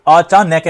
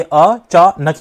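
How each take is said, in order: First: "अचानक" slowly as अ-चा-नै-कै, four beats; wrongly split. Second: "अचानक" slowly as अ, चा, नक, last syllable whole; three spaced beats on "अचानक" without changing its sound; correctly split. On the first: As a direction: open up नक of "अचानक" into नै and कै. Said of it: "ये अचानक नहीं रहा". ("अचानक" को गलत ढंग से अ-चा-नै-कै बोलें) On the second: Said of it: "ये अचानक ही था". ("अचानक" को अ-चा-नक तीन अक्षरों में बोलें) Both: Shown as a demonstration.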